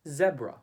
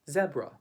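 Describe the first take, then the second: First: It is said with a British accent. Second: It is said with a British accent.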